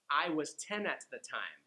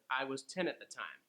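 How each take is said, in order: First: The sentence is said at a quicker pace. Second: The sentence is said at the quickest pace.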